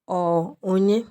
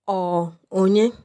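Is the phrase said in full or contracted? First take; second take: contracted; contracted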